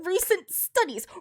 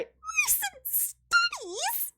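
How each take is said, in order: First: The voice is at a lower pitch. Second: The voice is at a very high pitch.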